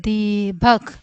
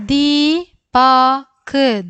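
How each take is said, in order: First: Said in the usual way. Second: Deepak drawn out slowly and louder; slow louder read. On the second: Shown as a demonstration. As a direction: model Deepak slowly for the class. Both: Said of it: "അക്ഷരങ്ങൾ ഓരോന്നോരോന്നായിട്ട് വായിക്കാം".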